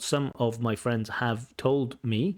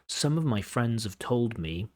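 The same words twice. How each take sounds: First: The word have is full and stressed. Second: The word have is reduced and unstressed. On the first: The speaker calls it wrong. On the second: The speaker calls it right. "this have is usually used with the weak form"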